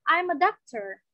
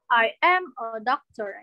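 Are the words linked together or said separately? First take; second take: linked; separately. First: The words run together in one linked chunk. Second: Each word is said separately, like reading aloud. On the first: It sounds like natural speech. The speaker calls it right. "make it natural" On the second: It sounds like reading from a text. The speaker calls it wrong. "Jadi jangan I am a doctor. Itu kan kayak baca gitu ya kesannya"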